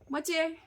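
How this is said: The middle consonant is a ch sound. The speaker is from Nyeri. "someone from Nyeri will say moche"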